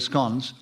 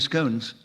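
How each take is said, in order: First: It is said with the Scottish pronunciation. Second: It is said with the English pronunciation. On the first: "if you live in Scotland, you say scones" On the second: "if you live in England, you say scones"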